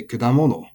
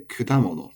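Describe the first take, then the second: First: Kudamono with the pitch peak off the da, the mistake; the unacceptable kudamono; wrong pitch accent. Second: Kudamono with the pitch peak on da, falling after; accent on da. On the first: Teacher showing learners a kudamono to avoid. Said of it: "You can't say kudamono". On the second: Teacher giving learners the correct kudamono. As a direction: rise to da in kudamono, then drop. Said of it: "you have to say kudamono". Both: Shown as a demonstration.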